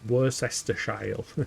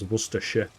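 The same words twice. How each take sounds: First: Every written syllable of the word is pronounced. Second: The word is squeezed into fewer, reduced syllables. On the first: "as it's spelt" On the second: "It just becomes Worcestershire"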